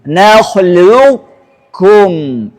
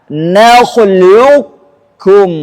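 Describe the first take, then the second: The two takes are said the same way.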